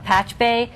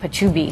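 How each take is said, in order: First: It is said in two syllables, like patch-bay. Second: It is said in three syllables, like pa-choo-bee. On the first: The speaker calls it right. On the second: The speaker calls it wrong.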